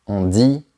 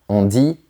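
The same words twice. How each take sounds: The two takes are said the same way.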